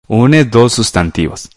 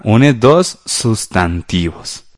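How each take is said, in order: First: Said in the usual way. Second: Drawn-out words, gaps between them; slow dictation. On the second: Shown as a demonstration. Teacher repeats the answer for pupils writing, slow dictation. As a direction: dictate it slowly, word by word.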